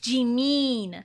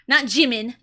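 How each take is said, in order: First: The second syllable has a long 'ee' vowel. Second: The second syllable has a short 'i' vowel. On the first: The speaker calls it right. "it's an E sound, so it's [name]" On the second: The speaker calls it wrong.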